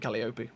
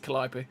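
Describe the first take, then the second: First: It is pronounced as the spelling suggests. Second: It is pronounced differently from the spelling. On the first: The speaker calls it wrong. "it looks like you say Calliope" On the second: The speaker calls it right. "but it's Calliope"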